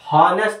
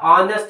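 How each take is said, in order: First: The word starts with an h sound. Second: The word starts with a vowel, no h. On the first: The speaker calls it wrong. "ಹಾನೆಸ್ಟ್ ಅಲ್ಲ" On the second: The speaker calls it right. "ಆನೆಸ್ಟ್ ಅಂತ ಹೇಳ್ಬೇಕು"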